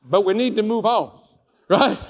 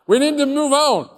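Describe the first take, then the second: First: Louder, insistent push to move on; firm push. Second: High, loud shout, repeating the demand; forceful shout. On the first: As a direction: lean into it, press the point. Pushing the boss to move on. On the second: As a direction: slam the point home at full voice. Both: Retold or imitated.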